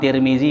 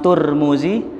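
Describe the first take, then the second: First: The first syllable has the vowel i. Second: The first syllable has the vowel u. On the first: "Imam Tirmizi boleh" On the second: "Imam Turmuzi boleh"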